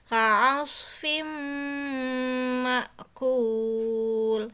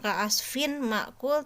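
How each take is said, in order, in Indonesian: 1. Bunyi n menyatu sepenuhnya dengan m. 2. Bunyi n diucapkan dengan jelas sebelum m.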